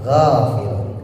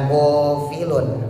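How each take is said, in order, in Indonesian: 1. Bunyi pertama diucapkan dengan bibir melebar. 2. Bunyi pertama diucapkan dengan bibir membulat. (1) "g merenges ya, bukan monyong, tarik bibirnya" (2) "bukan go bukan gofilun"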